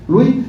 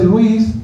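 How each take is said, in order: First: Louis with the final S dropped; S final muda. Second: Luis with the final S sounded; S final pronunciada. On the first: (Louis sin pronunciar la S final) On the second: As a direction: say Luis the Spanish way, ending in S. (Luis con la S final bien pronunciada) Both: Shown as a demonstration. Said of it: "se roban la S".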